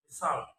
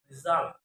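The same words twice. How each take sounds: First: "result" with s for z; learner's mispronunciation. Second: Said in the usual way. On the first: Shown as a demonstration. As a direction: say "result" as "ressult". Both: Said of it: "is pronounced".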